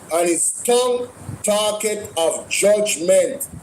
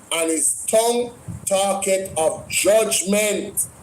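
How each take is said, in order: Both takes have the same delivery.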